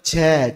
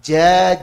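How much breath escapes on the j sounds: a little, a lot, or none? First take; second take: a lot; a little. First: A strong stream of breath flows on each j. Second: Only a faint trace of breath flows on each j. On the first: The speaker calls it wrong. "Nah ini baru dipermasalahkan ini" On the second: The speaker calls it right. "ini secara makhraj sudah tepat"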